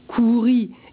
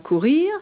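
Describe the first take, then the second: First: The word ends without a final R sound. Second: The word ends with a final R sound. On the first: This is how it was said in the seventeenth century. "couri et non pas courir" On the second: This is the form not used then. "et non pas courir"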